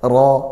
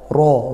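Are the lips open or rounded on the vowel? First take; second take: open; rounded. First: The vowel is open and thick, lips unrounded. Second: The vowel is said with rounded lips. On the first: The speaker calls it right. "Fathah buka, tapi tebal dari pangkal lidah" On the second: The speaker calls it wrong. "atau mencucu, monyong karena u. Tidak"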